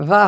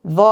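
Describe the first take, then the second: First: "জা" with an open aa vowel; thin "জা", unrounded aa instead of o; light ZA. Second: "জ" as emphatic Arabic za with rounded o; heavy ZA. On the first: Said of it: "জা হবে না". ("জা" পাতলা, খোলা আ-ধ্বনিতে) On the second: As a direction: keep "জ" heavy, vowel like aw. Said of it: "জ থাকবে". ("জ" আরবি যোয়ার মোটা অ-ধ্বনিতে) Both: Shown as a demonstration.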